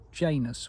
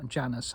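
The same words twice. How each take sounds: First: Janus with a long A, "JAY-nus"; long-A pronunciation. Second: Janus with a short A, "JAN-us"; short-A pronunciation. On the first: Naming the Roman god, Janus said "JAY-nus". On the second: Offering another version, Janus said "JAN-us". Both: Shown as a demonstration. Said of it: "however you pronounce it".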